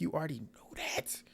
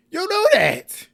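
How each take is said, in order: First: Soft, held-back comeback; muted retort. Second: Very high, loud, stretched-out cry; exasperated outburst. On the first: Recapper answering the apologetic bride, muted retort. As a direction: keep the comeback soft before the outburst. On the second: Recapper answering the apologetic bride, exasperated loud outburst. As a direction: wail it slowly, high and loud. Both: Retold or imitated.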